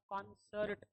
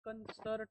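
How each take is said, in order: First: The first vowel is an open 'aw' sound. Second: The first vowel is a short 'uh' sound. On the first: The speaker calls it right. "Correct जो pronunciation है वो कॉन्सर्ट ही आता है" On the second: The speaker calls it wrong. "It is not कंसर्ट"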